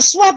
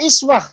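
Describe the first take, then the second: First: The word begins with a 'u' vowel. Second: The word begins with an 'i' vowel. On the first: The example to follow is something great. "Hamzahnya itu memakai domah" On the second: Even the smallest things are an example to follow. "Menggunakan kasroh"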